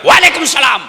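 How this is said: It is said curtly, in a blunt, tough way.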